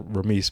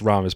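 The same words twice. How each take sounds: First: The 'i' vowel is pronounced as 'ee'. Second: The 'i' vowel is not pronounced as 'ee'. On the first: The speaker calls it wrong. "I just thought it was Ramis" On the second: The speaker calls it right. "but it's Ramis"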